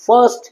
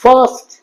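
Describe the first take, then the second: First: ফার্স্ট with a quick, open 'a', like 'farst'; ফার্স্ট said quickly with a plain 'a'; wrong 'first'. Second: ফার্স্ট as English 'fuhst', long vowel, higher pitch; careful, pitched-up ফার্স্ট without the R; silent R. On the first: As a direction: say ফার্স্ট short, as the mistake. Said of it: "ফার্স্ট নয়". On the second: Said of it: "আর silent". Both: Shown as a demonstration.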